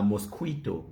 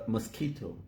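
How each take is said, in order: First: "mosquito" said as mos-KWEE-to; common mispronunciation. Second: "mosquito" said as muh-SKEE-to; correct pronunciation. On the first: Quoting how some people talk, mosquito as mos-KWEE-to. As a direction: put a kw in "mosquito". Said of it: "Some people call it". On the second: Teaching the next word, mosquito as muh-SKEE-to. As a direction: say "mosquito" with no w sound. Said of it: "Some people call it a mosquito". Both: Shown as a demonstration.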